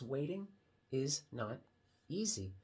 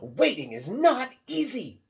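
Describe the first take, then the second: First: It is said plainly, without excitement. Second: It is said with lively excitement.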